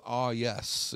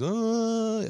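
First: Said in the usual way. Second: "Ah" high and loud, then "yes" drawn out; mock the teacher's pompous "Ah, yes"; lofty teacher catchphrase. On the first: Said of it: "he had this thing with". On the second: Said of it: "It was always".

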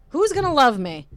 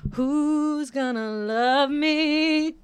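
First: A high, louder mock-despairing question; mock despairing cry. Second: Slow, high, half-sung lament; sung, stretch every word like a hammed-up ballad; sung, drawn-out mock wail. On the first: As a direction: toss it up like a hammed-up lament. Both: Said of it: "Instead of "You're gonna love me".

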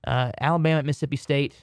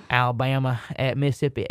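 First: Southern country twang on Alabama at Mississippi State; country accent. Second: Said in the usual way. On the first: Real, not acted. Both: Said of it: "in such a country accent".

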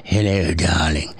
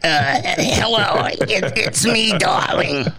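First: Sultry lady voice. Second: Higher, slow, raspy smoker's voice; smoker's rasp. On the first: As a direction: purr it like a glamorous lady. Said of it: "Virginia Slims was". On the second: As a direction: croak it like a lifelong chain smoker. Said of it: "sounded like I was cough up a lung". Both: Retold or imitated.

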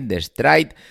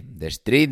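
First: "Stride" pronounced to rhyme with "ride", higher; Stride with "eye". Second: "Street" pronounced to rhyme with "sweet". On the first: Podcaster offering another name for the app, "Stride" with an eye sound. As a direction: say "Stride" with an eye vowel, pitched up. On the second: Podcaster unsure of the app's name, "Street" with an ee sound. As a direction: say "Street" with a long ee vowel. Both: Shown as a demonstration. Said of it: "de como demonios le llaméis".

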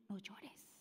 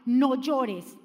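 First: Barely breathed whisper, very soft; hushed tender whisper; whispered comfort. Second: Said in the usual way. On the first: Acted. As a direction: breathe it like a secret to a mourner. Jesus speaks to grieving mother. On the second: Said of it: "Esta palabra que el Señor le dijo".

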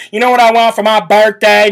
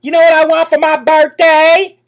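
First: A light Southern drawl imitation; a hint of a Southern accent, mocking; mild mock Southern accent. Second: A higher, drawling Southern accent mocking her. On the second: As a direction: put on a fake Southern accent, teasing. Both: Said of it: "a little bit of a Southern drawl".

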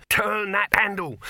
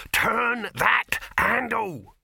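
First: Loud, high, urgent shout; screamed command. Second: Loud, high, drawn-out scream; screamed slow command. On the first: Dibbler shouting at the handleman, loud and urgent. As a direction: yell it in one sharp burst. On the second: Dibbler screaming at the handleman, every word stretched. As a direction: scream each word separately, very slowly. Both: A narrator's reading. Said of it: "screamed Dibbler".

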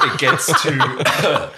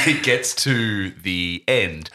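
First: Slowed words through real laughter; laughing. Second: Said in the usual way. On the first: Real, not acted. Host laughing mid-sentence, slow and giggly. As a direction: laugh while getting the words out.

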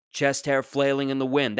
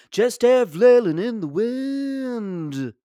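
First: Said in the usual way. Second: High, slow nasal-free folk drawl sung-spoken like Dylan; [name] impression. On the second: Comic imitating [name] singing his own life. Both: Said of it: "That sounds like a [name] song".

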